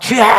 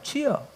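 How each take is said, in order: First: It is said loudly. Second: It is said quietly.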